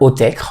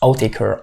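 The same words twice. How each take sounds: First: The name is pronounced the French way. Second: The name is pronounced the English way. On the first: "en français" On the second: "ça se prononce Outtaker en anglais"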